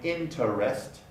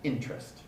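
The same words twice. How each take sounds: First: The word is said with three syllables. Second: The word is said with two syllables. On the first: This is the original pronunciation. "originally interest, interest, three syllables" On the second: This is how many speakers say it now. "is now, by many speakers"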